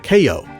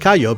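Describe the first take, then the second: First: The word is said with an English pronunciation. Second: The word is said with a Spanish pronunciation. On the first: "the English pronounced it Cayo, which is a lot closer to key" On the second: "that's the Spanish pronunciation"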